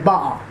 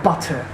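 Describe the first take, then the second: First: The middle T is dropped. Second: The middle T is clearly pronounced. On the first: "you actually don't say T. You say butter" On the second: "It's actually not butter"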